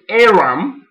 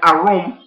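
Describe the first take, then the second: First: The word is said with an English pronunciation. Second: The word is said with a Hebrew pronunciation. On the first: The speaker calls it wrong. "in English they call it Aram" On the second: The speaker calls it right. "Aram is actually a Hebrew word, but it's actually Aram"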